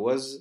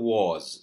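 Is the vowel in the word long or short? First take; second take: short; long. First: The word is said short and clipped. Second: The word is said with a drawn-out vowel. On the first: "ஷார்ட்டா சொல்லக்குள்ள" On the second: "நீட்டி சொல்லும் பொழுது"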